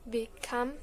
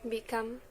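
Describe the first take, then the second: The two takes are said the same way.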